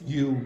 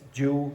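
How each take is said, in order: First: The word begins with a Y sound. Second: The word begins with a J sound. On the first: The speaker calls it right. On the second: The speaker calls it wrong. "don't say"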